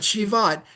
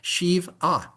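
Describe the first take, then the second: First: The syllables run together as shi-vat. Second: The word breaks after shiv, then at. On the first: The speaker calls it wrong. "not Shivat" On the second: The speaker calls it right. "make sure you say it that way, Shiv"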